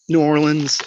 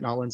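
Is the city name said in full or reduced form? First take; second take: full; reduced. First: The name is said in its full form. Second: The name is squeezed into a short form.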